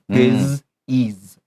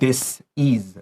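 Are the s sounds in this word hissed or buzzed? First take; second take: buzzed; hissed. First: Both s sounds are voiced, like z. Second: Both s sounds are voiceless, like s. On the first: The speaker calls it right. "Disease 你的 s 都是发 s 发 z" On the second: The speaker calls it wrong. "Don't say this is. That's wrong"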